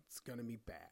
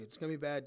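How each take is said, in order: First: Low, soft and dry; soft low deadpan aside. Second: Said in the usual way. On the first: Acted. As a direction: drop it quietly like a confession. Deadpan warning about the show.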